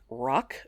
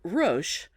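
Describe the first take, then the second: First: The name is said like the word 'rock'. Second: The name is said unlike the word 'rock'.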